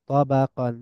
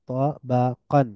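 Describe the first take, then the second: First: Said in the usual way. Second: তাবাকান slow, split ta, ba, qan; syllable by syllable. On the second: Shown as a demonstration. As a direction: pause between the syllables of তাবাকান. Teacher breaks word into syllables. (ভেঙে ভেঙে তাবাকান)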